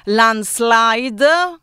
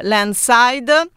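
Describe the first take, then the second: First: [name] with its second L restored, "land-slide"; self-correct to a clear "LAN-slide" for [name]; corrected pronunciation. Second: [name] said as "land-side", dropping the second L; drawn-out slip on [name], heard as "LAN-side"; mispronounced title. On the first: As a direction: sound the SL in [name]. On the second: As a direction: say [name] slowly without its middle L. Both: Real, not acted.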